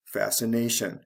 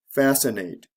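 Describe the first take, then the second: First: "fascination" stressed fasci-NA-tion; stress before the ending. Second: "Fascinate" stressed FAS-ci-nate; stress on first syllable. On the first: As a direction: land on NA in "fascination". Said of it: "the stress comes right before the ending". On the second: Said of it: "is actually the first syllable of these words". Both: Shown as a demonstration.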